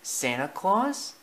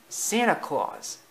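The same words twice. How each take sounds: First: SANTA CLAUS high and slow, rising at the end; puzzled question. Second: High, drawn-out character voice giving the answer; explaining. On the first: Acted. Bambi hears the name Santa Claus, puzzled rising question. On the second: A narrator's reading. Thumper answers Bambi's question, explaining. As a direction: state it slowly and high, as the answer. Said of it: "explained Thumper".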